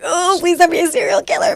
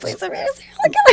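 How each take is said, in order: First: Higher, half-joking begging; mock nervous plea. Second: Much higher, faster, breaking into laughter; laughing mock plea. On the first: Parent hoping for a good kid, mock nervous plea. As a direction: pretend to pray over a random baby. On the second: Parent pleading over the bag, laughing and much higher. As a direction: beg again while cracking up. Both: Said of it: "Just put your hand in the bag and like".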